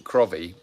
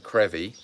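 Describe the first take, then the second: First: "Crovy" said as spelt, with an O; "Crovy" read from its spelling, not the Scottish way; non-local pronunciation. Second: "Crevy" with an E sound, rhyming with "bevvy"; "Crevy" the Scottish way, no O sound; Scottish local pronunciation. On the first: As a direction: say "Crovy" with the written O sounded. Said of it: "So we'd pronounce it". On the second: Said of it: "it's pronounced in Scotland". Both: Shown as a demonstration.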